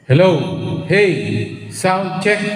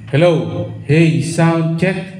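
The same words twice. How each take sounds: First: The voice has an added echo effect. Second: The voice is dry, with no echo.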